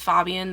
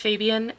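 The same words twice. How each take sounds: First: The first vowel is short, like in 'fab'. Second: The first vowel is long, like in 'fade'. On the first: "they would call him Fab or Fob" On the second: "because his friend Vanessa calls him Fabe"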